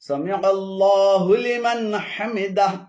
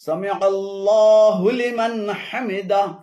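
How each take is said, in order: The two takes are said the same way.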